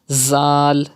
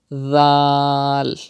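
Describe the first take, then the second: First: The consonant is a high whistling hiss. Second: The consonant is soft with no whistle. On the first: The speaker calls it wrong. "If you read it like this, Zal, Zal, it's not correct" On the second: The speaker calls it right. "without whistle sound, softly, like this"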